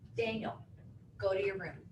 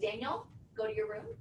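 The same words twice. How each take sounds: First: The pitch falls at the end of the phrase. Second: The pitch rises at the end of the phrase. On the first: The speaker sounds authoritative and confident. The speaker calls it right. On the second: The speaker sounds unsure and lacking authority. The speaker calls it wrong. "So here's an upswing"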